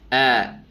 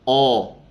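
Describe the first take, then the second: First: The vowel sounds light and open, like a. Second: The vowel sounds full and rounded, like o. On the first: The speaker calls it right. "Tapi A. Yang benar adalah A" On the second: The speaker calls it wrong. "Nggak boleh kita bacanya O ya"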